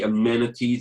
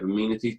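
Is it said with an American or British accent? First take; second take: American; British. First: It is said in an American way. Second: It is said in a British way.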